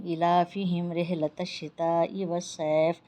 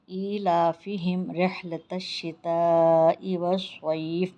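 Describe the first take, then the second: First: والصیف said with a plain س, vowels not stretched; wrong recitation. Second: والصیف recited slowly with ص, long vowels drawn out; correct recitation. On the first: Teacher showing students the wrong recitation, quicker. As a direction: rush ایلافہم رحلۃ الشتاء والصیف without the long vowels. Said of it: "یہ بالکل بھی جو ہے غلط ہو جاتا ہے". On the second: Teacher showing students the correct recitation, slow and drawn out. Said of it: "ایک مرتبہ اور پڑھی". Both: Shown as a demonstration.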